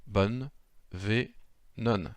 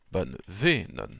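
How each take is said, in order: First: "bonne, ve, non" slowly, split by pauses; syllable by syllable. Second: "bonne ve, non" slow, leaning on "ve"; stress on VE. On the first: Teacher splitting the word to place the stress, syllable by syllable. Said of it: "je mets l'accent tonique". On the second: Teacher demonstrating the pronounced word, stress on second-last syllable. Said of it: "lorsqu'on le prononce". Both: Shown as a demonstration.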